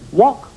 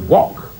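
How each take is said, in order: First: The pitch rises at the end, like a question. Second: The pitch falls at the end, like a statement. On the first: The speaker is unsure of the answer. The speaker calls it wrong. "Notice there wasn't a query in his voice. He didn't say" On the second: The speaker is sure of the answer. The speaker calls it right. "It was wok. You got it right"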